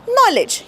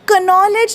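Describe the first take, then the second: First: The word begins with an n sound. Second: The word begins with a k sound. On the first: The speaker calls it right. "के silent आहे" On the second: The speaker calls it wrong. "कनॉलेज नाही म्हणत"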